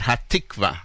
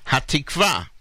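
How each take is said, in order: First: Hatikva said HA-tik-va, Ashkenazi stress on the first syllable. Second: Hatikva said ha-tik-VA, stress on the final VA; Hatikva, stress on the last syllable. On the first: Host showing the old Ashkenazi stress on Hatikva. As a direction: put the weight on HA in Hatikva. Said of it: "not Hatikva". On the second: Host teaching listeners to say Hatikva, stress on VA. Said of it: "is the way it should be pronounced". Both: Shown as a demonstration.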